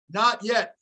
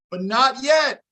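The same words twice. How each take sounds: First: Said in the usual way. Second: Yet pushed a little higher and louder, falling; stress on yet. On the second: Real, not acted. Insisting to chat the coach stays for now, stressing yet. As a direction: lean on yet with a falling finish.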